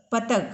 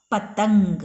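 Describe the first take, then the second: First: पतंग said without the nasal, like "patag"; wrong, no nasal. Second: पतंग with a clear ng nasal before the g; correct with nasal. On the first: Teacher showing class the wrong form, no nasal. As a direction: drop the ng sound from पतंग. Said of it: "पतंग कोई शब्द होता है?". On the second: Teacher giving class the right form, clear nasal. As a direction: sound the nasal in पतंग fully. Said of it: "कहाँ पे, "न" का sound". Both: Shown as a demonstration.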